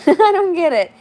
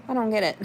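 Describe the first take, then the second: First: Laughing, much higher and louder "I don't get it". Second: Said in the usual way. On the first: Real, not acted. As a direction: laugh out the repeat in disbelief. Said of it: "repeats laughing".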